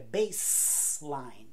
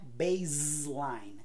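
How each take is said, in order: First: The middle consonant is a hissing S sound. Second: The middle consonant is a buzzing Z sound. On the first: The speaker calls it right. "é baseline" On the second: The speaker calls it wrong. "não é baseline"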